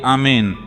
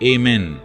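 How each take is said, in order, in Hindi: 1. यह शब्द गैर-अमेरिकी तरीके से बोला गया है। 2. यह शब्द अमेरिकी तरीके से बोला गया है।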